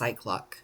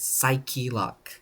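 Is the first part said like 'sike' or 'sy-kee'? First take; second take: sike; sy-kee. First: The first part is said as one syllable, 'sike'. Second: The first part is said as two syllables, 'sy-kee'. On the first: The speaker calls it wrong. "not just Cyclock" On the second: The speaker calls it right. "it's Psyche Lock"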